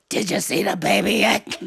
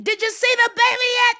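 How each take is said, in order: First: Soprano dropped to bass; comically lowered voice. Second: High-pitched excited yell; excited child shouting. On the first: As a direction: make it low but no quieter, as a child misunderstanding. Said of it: "I thought lower meant quieter". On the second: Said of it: "and I was shouting". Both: Retold or imitated.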